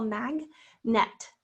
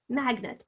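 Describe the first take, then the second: First: Full short E in magnet's second syllable; magnet with NET. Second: Said in the usual way. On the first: Shown as a demonstration. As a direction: say mag-NET in two clear syllables. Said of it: "Some people say net". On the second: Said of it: "it's spelled E".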